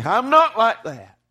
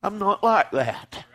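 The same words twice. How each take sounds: First: NOT pitched up high and punched louder; emphatic confession. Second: Said in the usual way. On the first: Real, not acted. Preacher confesses he falls short of his Lord, NOT punched in anguish. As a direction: cry it out, leaning hard on NOT.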